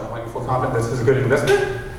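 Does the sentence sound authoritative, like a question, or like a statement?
question. It is said with a questioning tune.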